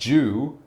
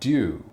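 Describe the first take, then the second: First: It begins with a j sound. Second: It begins with a sound between d and j. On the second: "somewhere in the middle"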